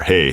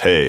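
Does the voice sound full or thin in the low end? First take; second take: full; thin. First: The low frequencies are kept, so it sounds full. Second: The low frequencies are cut, so it sounds thin. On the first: "Back to no bass roll off whatsoever" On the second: "one hundred sixty hertz high pass filter"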